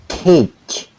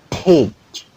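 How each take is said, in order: The two takes are said the same way.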